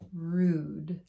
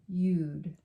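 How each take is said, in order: First: The vowel is said as 'oo'. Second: The vowel is said as 'yoo'. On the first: The speaker calls it right. "So it has more of an oo sound" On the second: The speaker calls it wrong. "Doesn't sound right, does it?"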